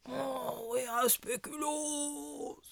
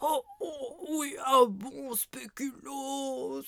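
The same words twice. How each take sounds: First: Softer sleepy mumble, trailing off; sleep talking, fading. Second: Sleep talking. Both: Acted. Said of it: "il parle en dormant".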